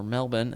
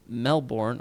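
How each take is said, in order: First: Melbourne with a reduced second syllable, "MEL-bun"; local pronunciation. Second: Said in the usual way. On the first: Shown as a demonstration. Reader showing how locals say it, Melbourne as "MEL-bun". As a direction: say Melbourne the Australian way, ending unstressed. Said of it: "as they call it". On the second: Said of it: "or Melbourne as they call it".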